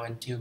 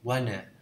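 First: Both words are said fully and separately. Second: The words are blended into one short word. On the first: "mình không đọc theo want to" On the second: "mà mình đọc wanna"

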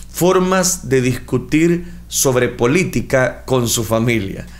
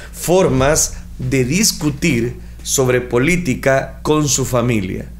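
Both takes have the same delivery.

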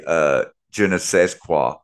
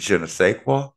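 First: The word sais ends with a d sound. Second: The word sais sounds like say, no d. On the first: The speaker calls it wrong. "the SAIS is pronounced say, not said" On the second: The speaker calls it right. "the SAIS is pronounced say"

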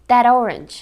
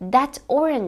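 First: The two words are joined together. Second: The two words are spoken separately. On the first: "iki kelimeyi birbirine yapışık olarak telaffuz ediyorum" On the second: "that orange şeklinde duymayı beklesek de"

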